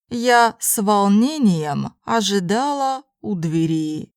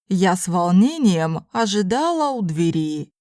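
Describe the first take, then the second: First: It is spoken slowly and carefully. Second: It is spoken at a normal conversational pace. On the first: "first in slow Russian" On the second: "then in normal speed Russian"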